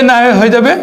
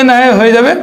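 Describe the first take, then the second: The two takes are said the same way.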